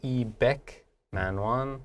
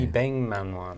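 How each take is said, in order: First: A k sound comes before the m. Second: An ng sound comes before the m. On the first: The speaker calls it wrong. "doesn't sound to me like 이백만 원" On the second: The speaker calls it right. "Sounds more like"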